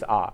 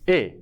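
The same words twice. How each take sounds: First: The article is said weakly, without emphasis. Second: The article is said fully, with emphasis. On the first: "this a doesn't give any emphasis" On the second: "If this a gives emphasis, then it becomes a"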